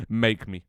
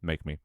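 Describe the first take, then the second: First: "Make me." louder, higher, defiant. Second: Said in the usual way. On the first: Real, not acted. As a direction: throw "Make me." back as a challenge. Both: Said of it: "Do not diss Yembo".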